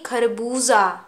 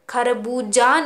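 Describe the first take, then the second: First: The last consonant is a z sound. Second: The last consonant is a plain j sound. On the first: The speaker calls it right. "उस व्यंजन की आवाज़ अलग हो जाती है" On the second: The speaker calls it wrong. "नहीं"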